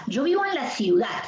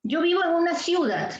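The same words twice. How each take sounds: First: Ciudad stressed as ciu-DAD in the sentence. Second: Ciudad stressed as CIU-dad in the sentence; deliberately misstress ciudad on its first syllable; wrong stress on CIU. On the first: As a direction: put the weight on the final DAD of ciudad. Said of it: "la fuerza de voz está en dat". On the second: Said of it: "y no es así". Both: Shown as a demonstration.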